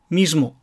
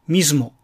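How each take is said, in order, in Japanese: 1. 「s」の音は有声音で、「z」のような音です。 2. 「s」の音は有声音で、「z」のような音です。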